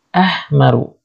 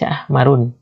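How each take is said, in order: First: The word ends on a vowel without 'n'. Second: The word ends with a final 'n' sound. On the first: The speaker calls it right. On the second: The speaker calls it wrong.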